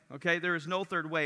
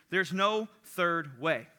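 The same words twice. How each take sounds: First: Said in the usual way. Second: Slow, deliberate, each word weighted; measured sermon quote; slow emphasis. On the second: Retold or imitated. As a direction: quote the line like a verdict. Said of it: "he simply said this".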